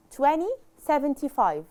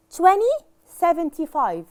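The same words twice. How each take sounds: First: Said in the usual way. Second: "Twenty seventy-five" read out louder and higher as two clear halves; teacher's model reading. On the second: Shown as a demonstration. (نطق نموذجي بصوت أعلى: "Twenty" ثم "seventy-five") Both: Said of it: "يعني عشرين خمسة وسبعين".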